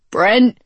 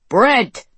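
First: Loud call echoing through the cave; shouting a name. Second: Loud falling call into the dark; shouting a name. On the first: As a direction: call out his name, rising. Calling for wounded friend. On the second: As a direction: yell his name, dropping at the end. Calling again in cavern. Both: Acted.

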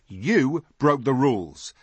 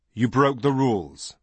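First: YOU drawn out and high, slow accusation; accusing stress on YOU. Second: Measured verdict, evenly weighted words; confirming verdict. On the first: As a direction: pin the blame with a long, emphatic "You". Boy accuses Nip. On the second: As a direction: confirm the charge without leaning on "you". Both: A narrator's reading.

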